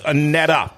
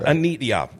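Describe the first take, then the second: First: The name is said as 'Anetta'. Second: The name is said as 'Anita'. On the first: The speaker calls it right. "it's Anetta" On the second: The speaker calls it wrong. "It's not Anita"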